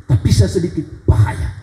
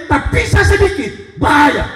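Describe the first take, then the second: First: Said in the usual way. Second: Emphatic warning. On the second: Shown as a demonstration. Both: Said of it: "Apa artinya?".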